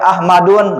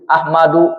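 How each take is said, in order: First: The word ends with an added n sound. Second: The word ends on a plain u vowel. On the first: The speaker calls it wrong. "Enggak boleh Ahmadun" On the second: The speaker calls it right. "Dibacanya enggak boleh tanwin"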